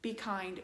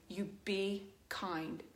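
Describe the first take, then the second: First: Said in the usual way. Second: You be kind, each word slow and weighted on be; slow stress on be. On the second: Real, not acted. Closing her plea to online commenters, slow and weighted. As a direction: lay it down slowly, a closing plea.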